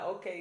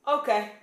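First: Said in the usual way. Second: A loud, clipped okay that warns of trouble; ominous okay, pitched high and loud; dangerous okay. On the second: Retold or imitated. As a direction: say okay like a threat. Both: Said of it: "is dangerous".

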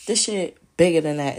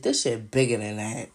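First: Repeated louder, pressing the point home; louder insistence. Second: Said in the usual way. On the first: Real, not acted. Insisting to viewers the scheme is bigger, louder. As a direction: hit it harder the second time.

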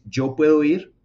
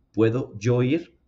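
First: Louder, stressing puedo; statement version. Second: Slow rising question; question version. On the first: Teacher contrasting statement and question, louder. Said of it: "una cosa es decir". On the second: Teacher contrasting statement and question, slow rise. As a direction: verb first, then rise. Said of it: "lo que hace que realmente se transforme". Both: Shown as a demonstration.

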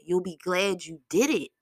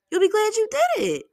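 First: Said in the usual way. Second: Very high, loud cheerleading repeat; high-pitched encouragement. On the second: Real, not acted.

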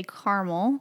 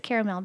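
First: "caramel" as CAR-mull; two syllables in "caramel", CAR-mull; disliked pronunciation. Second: "caramel" as CARE-uh-MELL; expected pronunciation. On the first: Wife quoting the hated way, "caramel" as CAR-mull. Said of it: "we hate when people say". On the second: Wife naming the couple's usual way, "caramel" as CARE-uh-MELL. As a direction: end "caramel" on a clear MELL. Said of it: "you would think it's caramel". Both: Shown as a demonstration.

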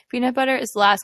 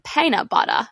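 First: Said in the usual way. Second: A light imitation of an Australian "Peanut butter." with a falling tune, "Peanut" said like "Paint" and "butter" like "batta"; a bad attempt at an Aussie "Peanut butter."; imitating Australian accent. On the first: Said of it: "I can't do it". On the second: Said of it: "I can't do it, but the way he says it".

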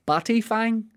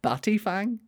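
First: Batty fang said high and bright; playful high read of batty fang; sounding it out. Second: Batty fang in a strange high put-on voice; silly character voice on batty fang; odd put-on voice. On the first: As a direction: lift the pitch on batty fang. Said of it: "a phrase here called a batty fang". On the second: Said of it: "Spelt batty fang". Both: Shown as a demonstration.

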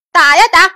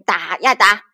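First: Chanted, high and loud, driving the fight on; chanted, punch it out louder and higher; loud, excited chant. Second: Said in the usual way. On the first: A narrator's reading. Storyteller on the fighters battling on, loud high chant. Fight repeated with more force.

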